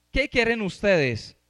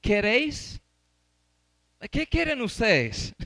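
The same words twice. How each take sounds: First: The question again with a laugh, slow; amused Pilate asking the crowd; laughing through it. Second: Slow, mock-questioning Pilate; lightly acted governor asking the crowd; Pilate's question. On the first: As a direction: chuckle as you repeat Pilate's question. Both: Shown as a demonstration. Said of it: "Miren cómo preguntó Pilato".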